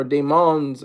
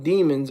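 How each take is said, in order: First: "Demons" said day-MONS, stress on the end; alternative pronunciation guess. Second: "Demons" said DEE-muns, stress up front; first pronunciation guess. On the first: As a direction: offer "Demons" as day-MONS, second syllable longer. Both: Shown as a demonstration. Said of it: "I don't know how you pronounce it".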